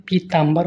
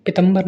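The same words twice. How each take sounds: First: पीताम्बर said pee-taam-bar; correct long vowels. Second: पीतम्बर with short vowels, pitambar; wrong vowels. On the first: Teacher corrects students, long vowels. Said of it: "होता है". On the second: Teacher shows students the mistake, short vowels. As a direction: keep both opening syllables of पीतम्बर short. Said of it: "नहीं". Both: Shown as a demonstration.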